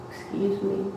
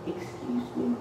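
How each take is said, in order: First: Soft, polite excuse me; a soft, polite request for attention; real soft. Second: Softer and higher "Excuse me."; a second, softer try for attention; even softer. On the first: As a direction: say "Excuse me." gently and quietly. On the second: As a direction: say "Excuse me." almost under the breath, pitched up. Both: Retold or imitated. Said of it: "Real soft".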